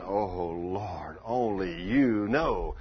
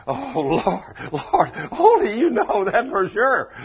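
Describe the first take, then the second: First: "Oh, Lord" low, then "only you know" drawn out slowly; awed reply. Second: OH, LORD and ONLY punched very high and loud; heavy emphasis. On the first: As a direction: stretch "only you know" in slow wonder. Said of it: "I can only imagine him saying". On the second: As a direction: cry out "only you know" with full emphasis. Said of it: "put the emphasis on that". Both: Acted.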